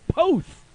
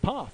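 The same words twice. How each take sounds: First: The vowel is long, as in boat. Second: The vowel is short, as in pot. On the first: The speaker calls it right. "like P O A T H" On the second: The speaker calls it wrong. "I didn't think I needed a pronunciation check"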